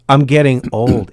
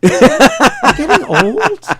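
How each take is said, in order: First: The voice falls at the end. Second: The voice rises at the end.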